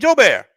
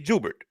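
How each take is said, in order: First: The first syllable has an 'oh' vowel. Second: The first syllable has an 'oo' vowel. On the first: This is how people outside the family say the name. "outside they be like, hey, Joe Bear" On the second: This is how the family says the name. "us as the family, we say Jubert"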